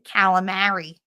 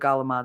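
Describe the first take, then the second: First: It starts with a k and ends in an i. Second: It starts with a g and drops the final vowel. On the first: "as it Americans say" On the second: "the galamad"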